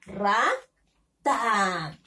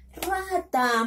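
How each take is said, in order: First: Rata split as RA, pause, long falling TA; teacher's drawn-out, separated Rata; syllable by syllable. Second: Rata blended into one higher-pitched word; teacher reading Rata as a connected word; syllables joined. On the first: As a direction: sound out "Rata" with a gap before "ta". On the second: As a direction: say "Rata" whole and higher, with no gap. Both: Shown as a demonstration. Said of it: "Vamos a unirlo con la sílaba".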